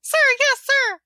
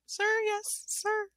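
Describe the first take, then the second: First: High, loud chanted reply; loud gung-ho soldier. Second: Softer, hesitant reply; unsure, asking rather than answering; questioning. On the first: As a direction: shout it back like recruits. Troops answer drill sergeant. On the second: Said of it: "like, questioning". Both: Acted.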